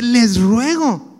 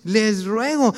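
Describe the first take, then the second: First: "ruego" drawn out slow and louder, an earnest plea; slow pleading plea. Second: Said in the usual way. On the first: Shown as a demonstration. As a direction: beg them, stretching "ruego". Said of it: "es un clamor de parte de Dios". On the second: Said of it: "es un clamor".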